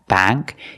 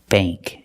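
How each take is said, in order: First: The vowel is the short a of cat. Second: The vowel is the long a of plate. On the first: The speaker calls it wrong. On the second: The speaker calls it right. "It's bank. Bank. Use the long A sound"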